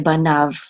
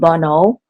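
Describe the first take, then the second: First: The word ends in a v sound. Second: The word ends in a vowel sound. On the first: This is the modern pronunciation. "but in modern biblical Hebrew, we say banav" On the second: This is the older, ancient pronunciation. "in ancient Hebrew, it was it was it would have been bono"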